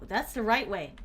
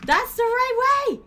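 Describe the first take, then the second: First: Said in the usual way. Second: High, loud, slow yell of triumph; excited shout. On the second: Real, not acted. Streamer yells at her character, loud and high. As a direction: belt it out, pitch way up. Yelling at the game.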